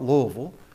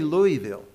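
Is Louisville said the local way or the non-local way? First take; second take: local; non-local. First: It is said the way locals say it. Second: It is said the way non-locals say it. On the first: "like most of the people who are from here will pronounce it" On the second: "I say Louisville"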